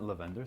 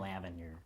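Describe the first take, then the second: First: It is said in a non-American accent. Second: It is said in an American accent. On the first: The speaker calls it right. "sound much more proper" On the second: The speaker calls it wrong. "American English just butchers everything... that's just terrible"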